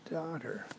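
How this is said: The word is said in a warm, tender tone. The speaker is addressing a beloved child with kindness. The speaker calls it right. "it would be daughter, my beautiful daughter"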